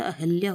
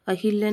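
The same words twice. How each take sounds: First: अहिल्या as a-HAL-ya, no 'i'; corrected अहिल्या. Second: अहिल्या with a clear 'hi'; mispronounced अहिल्या. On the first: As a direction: say अहिल्या with 'ha' for 'hi'. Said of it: "अहिल्या होता है". (अहिल्या को 'अहल्या' बोलें) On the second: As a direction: say अहिल्या as a-HIL-ya. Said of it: "अहिल्या नहीं होता". (अहिल्या में 'हि' बोलें) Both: Shown as a demonstration.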